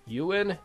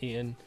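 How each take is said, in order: First: The name is said with a 'you' sound, 'you-an'. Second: The name is said as two syllables, 'ee-an'. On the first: The speaker calls it right. "Like Ewan McGregor" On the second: The speaker calls it wrong. "not Ian"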